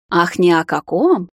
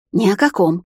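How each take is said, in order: First: Slow, drawn-out mock echo; sceptical scoff. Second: Quick, mildly defensive blurt; blurted denial. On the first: Heroine echoes the vampire's denial, slow sceptical scoff. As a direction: echo the denial with lingering disbelief. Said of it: "хмыкнула я". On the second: Vampire fends off the girl's question, blurted denial. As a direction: deny it hastily. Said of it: "выпалил Карай". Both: A narrator's reading.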